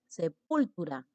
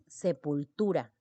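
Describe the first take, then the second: First: The stress falls on a syllable other than 'tu'. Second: The stress falls on the syllable 'tu'. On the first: The speaker calls it wrong. "porque tú no dices sepultura" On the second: The speaker calls it right. "dices sepultura. La mayor intensidad está ubicada aquí"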